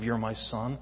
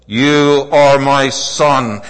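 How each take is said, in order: First: Said in the usual way. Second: Slow, loud, drawn-out proclamation; booming divine voice. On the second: Acted. Preacher proclaiming God's voice over the crowd. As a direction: let God's voice ring out.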